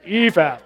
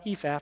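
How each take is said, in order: First: The word is said heavily and big. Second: The word is said lightly and small. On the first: It is actually a large amount. "but ephah" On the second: It sounds like a small amount. "Not ephah"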